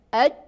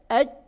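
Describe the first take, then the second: No difference in how they are said.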